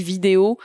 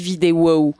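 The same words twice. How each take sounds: First: Said in the usual way. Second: "vidéo" running into a drawn "wow"; "vidéo wow" as one word, falling at the end. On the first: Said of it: "à chaque fois que je dis vidéo, je dis vidéo wow". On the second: Shown as a demonstration. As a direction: say "vidéo wow", tacking on the anime singer's "wow". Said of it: "je dis vidéo wow".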